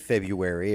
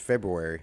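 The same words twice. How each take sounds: First: The first R sound is dropped. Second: The first R sound is pronounced. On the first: "it could be February if they like" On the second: "but it's February"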